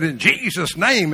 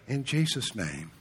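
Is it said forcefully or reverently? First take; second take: forcefully; reverently. First: It is said forcefully, with strong emphasis. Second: It is said softly and reverently.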